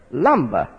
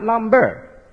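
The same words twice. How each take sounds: First: "Lumber" with a falling tune and no hard r; correct pronunciation. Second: "lumber" slowed, with a hard r in a heavy "berr"; "lumber" over-pronounced with a full final r; wrong pronunciation. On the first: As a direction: drop low on an unstressed end of "Lumber". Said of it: "correct pronunciation of this word is lumber". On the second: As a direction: drag out the second syllable of "lumber" as lum-BERR. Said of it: "Not lumber". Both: Shown as a demonstration.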